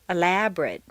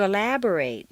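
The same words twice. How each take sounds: First: The last syllable has a weak reduced vowel. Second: The last syllable has a full 'ay' vowel. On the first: It is used as a noun or adjective. "completely reduced to mt" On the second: It is used as a verb. "a full a sound"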